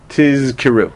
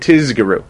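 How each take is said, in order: First: The middle consonants are a voiced z and voiceless k. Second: The middle consonants are a voiced z and g. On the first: "It's hard to say tizkiru" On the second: "it's easy to say tizgiru"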